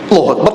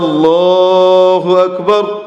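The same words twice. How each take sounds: First: The phrase is said at a normal pace. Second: The phrase is stretched out very long.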